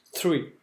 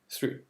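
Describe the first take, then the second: First: Said in the usual way. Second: Three said with a lisped th, tongue between teeth; Three with soft "th" not "t". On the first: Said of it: "tu zozotes un peu". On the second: Shown as a demonstration. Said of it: "faut zozoter".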